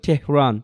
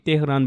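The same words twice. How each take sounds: First: The name is said with an English pronunciation. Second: The name is said with a Bengali pronunciation. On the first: The speaker calls it right. "International যে যারা news reader আছে ... ওরা দেখবেন তেহরান তেহরানি বলতেছে" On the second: The speaker calls it wrong. "এটাকে আমরা বাংলায় বলি কি তেহরান বলি"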